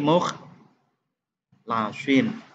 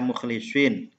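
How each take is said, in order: First: The vowel after the L is 'a'. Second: The vowel after the L is 'i'. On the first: It means the chosen ones. "bi fathil lam dengan memfathah lamnya" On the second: It means the sincere ones. "dibaca mukhlisin dengan dikasrohkan huruf lamnya"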